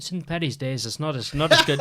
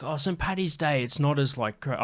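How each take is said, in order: First: Higher-pitched attempt at an Irish accent. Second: Half-hearted attempt at an Irish accent; failed Irish accent. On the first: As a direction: have a second, fuller go at an Irish accent. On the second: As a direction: start an Irish accent and lose it. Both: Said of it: "I can't do an Irish accent".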